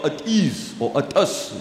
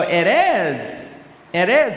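First: "It is" with short, closed vowels, like "ut us"; flat South African pronunciation. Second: "It is" with an open, drawn-out vowel on "is"; American pronunciation. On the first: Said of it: "We go". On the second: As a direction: say "it is" American-style, stressing and stretching "is". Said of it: "They will go". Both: Shown as a demonstration.

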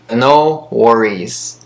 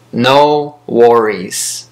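The two takes are said the same way.

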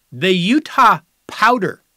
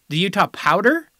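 First: Drawn out and louder, "Utah" stressed, falling at the end; slow name announcement. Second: "The Utah Powder?" with a rising, doubting tune; incredulous question. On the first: Host announcing a proposed team name, slow and loud. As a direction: present "The Utah Powder" like a grand reveal. Reading out candidate team names. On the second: Host mocking the proposed name in disbelief. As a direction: repeat "Powder" as if you can't believe it. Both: Acted.

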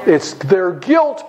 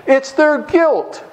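First: Slow, leaning hard on "guilt"; stress on guilt. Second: Slow, higher, punching "their"; stress on THEIR. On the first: Preacher pressing the lesson home, slow stress on "guilt". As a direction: drag out "guilt" to land it on the class. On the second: Preacher repeats the point, slow stress on "their". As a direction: hit "their" hard and slow. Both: Shown as a demonstration.

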